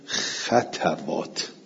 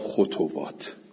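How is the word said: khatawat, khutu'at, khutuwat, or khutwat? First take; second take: khatawat; khutuwat. First: The first two syllables both carry an a vowel. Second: The first two syllables both carry a u vowel. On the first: "به فتل خواه و تا" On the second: "ول باقونه به زمه ها، بقیه گفتن خطوات"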